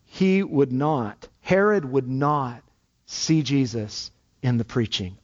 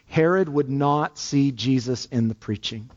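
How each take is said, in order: First: Each word slow and weighted, "Herod would not" dragged out; slow emphasis. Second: Said in the usual way. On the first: Shown as a demonstration. Preacher driving home Herod's refusal to the congregation, slow and weighty. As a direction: press every word of "he would not, Herod would not see Jesus". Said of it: "I want to emphasize that this morning". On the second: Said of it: "I want to really emphasize that".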